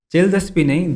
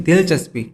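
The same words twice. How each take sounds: First: दिलचस्पी said as chelchaspi, wrong first sound; the lawyer's garbled दिलचस्पी; mispronounced dilchaspi. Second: दिलचस्पी said clearly as dilchaspi; crisp correct दिलचस्पी, first sound d; correct pronunciation. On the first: Host corrects the lawyer's slip, dilchaspi mangled. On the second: Host correcting the lawyer, careful dilchaspi. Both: Shown as a demonstration.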